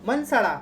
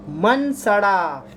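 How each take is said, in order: First: मन सड़ा said quickly, pitched higher with a falling end; quick higher recap. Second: मन सड़ा drawn out slowly and a bit louder, each syllable held; slow drilled mnemonic. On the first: Teacher wrapping up the mnemonic, quick and higher. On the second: Teacher to students drilling the mnemonic, slow and stretched. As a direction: spell the words out slow so the class remembers. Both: Shown as a demonstration. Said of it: "इसका ए".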